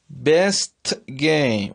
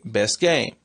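First: The t at the end of best is pronounced. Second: The t at the end of best is dropped.

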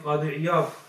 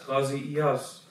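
First: The name is said with a d sound. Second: The name is said with a z sound. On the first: This is how the name is said in Arabic. "In Arabic, we pronounce his name Qadi Iyad" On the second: This is how the name is said in South Asia. "because we pronounce the word as a za sound, then they refer to him as Qazi Iyaz"

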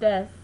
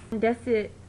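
First: The final u vowel is dropped, said fast. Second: The final u vowel is clearly pronounced.

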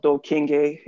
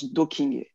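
First: The surname is said with an English accent. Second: The surname is said in its original pronunciation. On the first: The speaker calls it wrong. "if you're Anglophone" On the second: The speaker calls it right. "the actual way to pronounce it, or the way he pronounced it"

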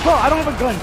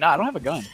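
First: It is said loudly and urgently. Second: It is said casually and calmly.

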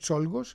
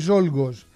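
First: The name begins with a voiceless ts sound. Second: The name begins with a voiced z sound.

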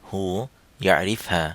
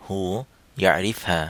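First: It is said in reduced Saudi dialect form. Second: The same.

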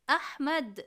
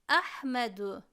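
First: The word ends on the consonant d. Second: The word ends with a final u vowel. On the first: The reader stops at this word. "ahmed şeklinde okuyarak dururum" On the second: The reading continues without stopping. "Kelimenin son harfinin harekesi ötredir"

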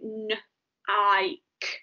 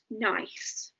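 First: The consonant is a hard K sound. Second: The consonant is a soft S sound. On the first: The speaker calls it wrong. "But you would be forgiven for saying n-i-k" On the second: The speaker calls it right. "So that word is nice"

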